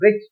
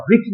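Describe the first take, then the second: First: Which as "wich", with no "h" sound; corrected pronunciation. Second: Which with an "h" sounded after the first consonant; wrong pronunciation. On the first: Teacher models for students how which is spoken, corrected "w" pronunciation. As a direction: say which on a plain w onset. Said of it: "okay, इसे बोलेंगे which". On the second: Teacher warns students off saying which so, mistaken aspirated pronunciation. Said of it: "अब देखिए यहाँ which नहीं बोलेंगे". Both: Shown as a demonstration.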